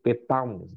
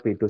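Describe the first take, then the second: First: It is said more like Chinese 'Beidou'. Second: It is said plainly as local Indonesian 'Bedu'. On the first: The speaker calls it right. "tapi namanya disebut petang" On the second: The speaker calls it wrong. "bukan di- dibaca Bedu seperti ini"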